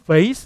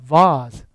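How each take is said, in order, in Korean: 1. 미국식 억양으로 발음돼요. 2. 영국식 억양으로 발음돼요.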